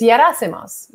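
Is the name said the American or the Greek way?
Greek. The name is said the Greek way. "But in Greece"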